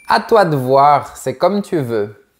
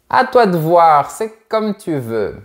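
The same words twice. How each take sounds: First: Said in the usual way. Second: Indifferent. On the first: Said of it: "C'est quand tu préfères laisser l'autre personne choisir". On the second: Shown as a demonstration. Tired on the sofa, letting the other pick, indifferent. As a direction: sound like you couldn't care less. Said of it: "C'est pour montrer que tu t'en fiches un peu".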